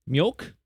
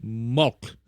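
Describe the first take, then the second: First: "Mjölk" with a y sound after the m, "myolk", rising; "Mjölk" retried with the j said as y, questioning; corrected Swedish. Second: "mjölk" said as "mok", the j dropped and the end rising; "mjölk" tried without the y sound, rising unsure; "mjölk" with no j sound, rising like a guess; first try at Swedish. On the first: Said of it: "J in Swedish is pronounced as Y". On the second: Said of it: "milk in Swedish is". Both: Shown as a demonstration.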